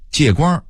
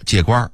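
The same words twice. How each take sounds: First: Said in the usual way. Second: "借光儿"变调上扬; 北京腔说"借光儿"; Beijing pronunciation. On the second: Shown as a demonstration. (北京话变调说"借光儿") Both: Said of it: "北京人会说借光儿".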